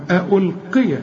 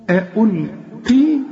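First: ألقي with an open a on the final y, "ulqiya"; continuing form. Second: ألقي ending on a long still i, very slow; stopping form. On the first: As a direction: end ألقي on a short "ya". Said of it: "عند الوصل الياء مفتوحة". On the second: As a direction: draw out the final ee of ألقي and stop there. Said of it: "إذا وقفت بنسكن الياء". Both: Shown as a demonstration.

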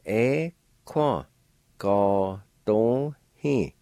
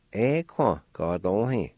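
First: "E kwa ga don hi" slow, the last part drawn out; slow model of "E kwa ga don hi"; slow joined syllables. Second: "E kwa ga don hi" said more smoothly and a bit slow; the flowing take of "E kwa ga don hi"; model word at speed. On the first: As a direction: join the syllables slowly for the learner. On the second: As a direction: run "E kwa ga don hi" together as one word. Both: Shown as a demonstration. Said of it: "And together".

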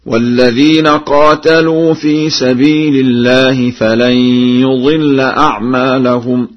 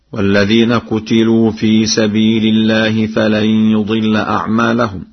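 First: Slow, louder chant with "قاتلوا" as qaatalu; Warsh recitation. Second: Said in the usual way. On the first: Shown as a demonstration. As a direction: chant it higher, stretching the long aa in "قاتلوا". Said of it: "بفتح القاف وألف بعدها وفتح التاء". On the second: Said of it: "قرأ ورش".

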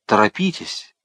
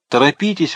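First: Said in the usual way. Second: Higher, louder desperate repeat; urgent exclaim. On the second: A narrator's reading. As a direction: push the second торопитесь up and loud. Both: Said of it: "воскликнул палач".

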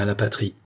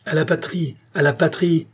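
First: Said in the usual way. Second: PATRIE thrown back high, said twice; exclaimed, raised-pitch repeat of "à la patrie"; indignant repetition. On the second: A narrator's reading. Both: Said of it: "répéta la reine".

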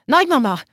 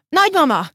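First: Loud call to grandma, pitched higher. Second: Even higher, louder second cry of Nagymama; the call cracks upward in panic; desperate shout. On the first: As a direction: pound on the door and call out for grandma. (dörömbölve, hangosan kiáltja, hogy Nagymama) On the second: (még magasabb, kétségbeesett kiáltás: Nagymama) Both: Acted. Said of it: "az öklével dörömbölt és kiabált".

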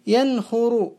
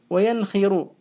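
First: ينخر said yankhuru; damma form. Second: وينخر said wa-yankhiru; kasra form. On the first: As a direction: put a u after the kh in ينخر. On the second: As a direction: put an i after the kh in وينخر. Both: Shown as a demonstration. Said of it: "هو مشهور بالضم والكسر معا".

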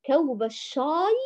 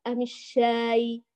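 First: الشاي with thick, backed aa; emphatic dark vowel in الشاي; heavy shin. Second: الشاي with thin, front aa; light shin. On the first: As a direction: say الشاي wrongly darkened, like shaw-y. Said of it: "ولا في لهجة نقول الشاي". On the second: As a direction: offer a light الشاي, slowly. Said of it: "نقول الشاي". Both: Shown as a demonstration.

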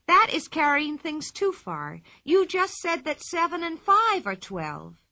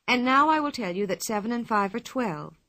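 First: Higher, louder, slow scolding; indignant lecture. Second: Said in the usual way. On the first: A narrator's reading. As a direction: put the teacher in her place. Pippi lectures the teacher.

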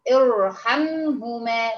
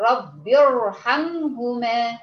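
First: ارحمهما read slowly on its own, ra heavy; isolated reading demo. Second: رب ارحمهما joined slowly, the ra in ارحمهما still heavy; connected reading demo. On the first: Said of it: "أما أجي أنطقها أقول إيه". (نطق ارحمهما منفردة ببطء وبراء مفخمة) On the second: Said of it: "لو أنا هوصلها". (وصل رب ارحمهما ببطء مع تفخيم الراء) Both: Shown as a demonstration.

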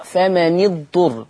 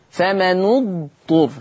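First: فمن اضطر joined as "fama-ni-dturr"; kasra on the nun. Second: Slow فمن اضطر as "fama-nu-dturr"; damma on the nun. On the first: Teacher shows Hafs's reading, "fama-ni-dturr" for فمن اضطر. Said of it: "بكسر النون". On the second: Teacher shows Warsh's reading, slow "fama-nu-dturr" for فمن اضطر. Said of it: "ورش يقرأ بضم النون". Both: Shown as a demonstration.

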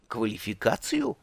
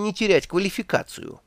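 First: Puzzled echo. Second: Said in the usual way. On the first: A narrator's reading. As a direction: repeat the word in confusion. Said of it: "переспросил Два Цветок".

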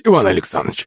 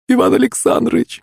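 First: Subdued, falling address to the master; drunk's meek plea. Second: Very high, rising female cry; woman's desperate plea. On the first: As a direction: plead meekly, like a scolded drunk. Drunk cowering before master. (виновато, по-пьяному) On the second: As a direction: call out imploringly to stop him. Pyshka pleads with master. (умоляющий женский вскрик) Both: A narrator's reading.

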